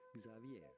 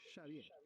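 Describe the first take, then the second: First: The name does not begin with 'sh'. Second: The name begins with a 'sh' sound. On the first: This is how it is said in English-speaking countries. "in English speaking countries, this is normally pronounced" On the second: This is how it is said in its Basque place of origin. "because in Basque, X is pronounced like S H"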